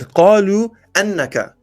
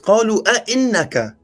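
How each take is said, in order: First: The last word begins directly with 'inna'. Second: The last word begins with an extra 'a' before 'inna'. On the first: The speaker calls it wrong. "you said قالوا أنك" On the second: The speaker calls it right. "It's قالوا أئنك"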